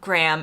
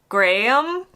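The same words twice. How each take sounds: First: It is said the American way, short. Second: It is said the British way, drawn out.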